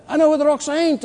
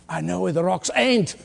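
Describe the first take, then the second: First: "I know where the rocks ain't" repeated higher with a stress on know; punchline lifted higher. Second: Said in the usual way. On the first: Shown as a demonstration. Preacher repeats the young man's answer to the church, higher and emphatic. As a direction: hit "know" high as the punchline. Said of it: "repeated punchline, pitched up". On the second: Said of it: "the young man said".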